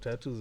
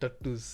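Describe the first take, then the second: First: The word is said with a standard accent. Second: The word is said with an Indian accent.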